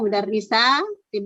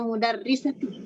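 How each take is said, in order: First: A vowel in the word is held long. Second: A vowel in the word is kept short. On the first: The speaker calls it right. "Jadi panjang ya" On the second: The speaker calls it wrong.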